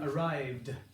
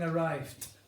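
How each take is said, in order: First: The word ends with a voiced d sound. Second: The word ends with a voiceless t sound. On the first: The speaker calls it right. "I'm saying arrived. You can hear that d" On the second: The speaker calls it wrong. "I'm not saying arrived"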